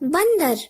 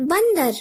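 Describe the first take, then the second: First: The word is said with a nasal sound. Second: The word is said with a nasal sound.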